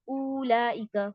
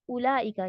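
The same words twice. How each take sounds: First: The first vowel is stretched long. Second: The first vowel is kept short. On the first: The waw is read aloud. The speaker calls it wrong. "आप मद करेंगे, खींचेंगे" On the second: The waw is silent and skipped. The speaker calls it right. "सिर्फ एक दम्मा पढ़ के आप लाम पे चले जाएंगे, आप इसको मद नहीं देंगे"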